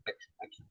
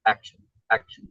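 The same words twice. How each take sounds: First: Whispered, breathless repeat of action. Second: Said in the usual way. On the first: Shown as a demonstration.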